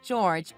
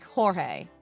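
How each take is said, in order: First: The name is said the English way. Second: The name is said the Spanish way. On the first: This is how the name was read from the paperwork. The speaker calls it wrong. "Mom must have read it out aloud like George" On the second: This is how the Mexican man's name is really said. The speaker calls it right. "your George is pronounced like Jorge"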